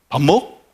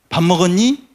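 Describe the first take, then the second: First: It is said in Jeju dialect, ending dropped. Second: It is said in standard Korean speech.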